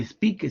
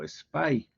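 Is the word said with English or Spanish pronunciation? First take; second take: Spanish; English. First: It is pronounced the Spanish way. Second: It is pronounced the English way.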